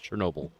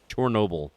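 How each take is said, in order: First: The first syllable sounds like 'cher'. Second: The first syllable sounds like 'chor'. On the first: This is the familiar form people expect. The speaker calls it wrong. "not Chernobyl" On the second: This is the form used in the title. The speaker calls it right. "That is Chernobyl"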